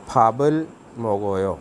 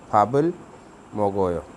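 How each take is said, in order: First: फाबल मो गो यो read slowly as linked Korean syllables. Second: फाबल with a rising lift, then मो गो यो; repeated Korean reading. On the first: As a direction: read फाबल मो गो यो carefully for learners. (धीमा Korean उच्चारण) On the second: (दोहराया Korean उच्चारण) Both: Shown as a demonstration. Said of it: "ये pronounce करते हुए ऐसे पढ़ना है".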